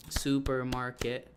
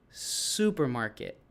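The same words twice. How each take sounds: First: "supermarket" slowly, every syllable evenly sounded; syllable count. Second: "supermarket" with a long drawn-out SU; stretched stress. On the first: Teacher showing students the syllables, slow and measured. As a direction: lay out "su-per-mar-ket" syllable by syllable. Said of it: "let them know how many syllables". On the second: Teacher showing where the accent falls, stressed syllable stretched. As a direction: stretch the first syllable of "supermarket" like a rubber band. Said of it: "you stretch the super". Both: Shown as a demonstration.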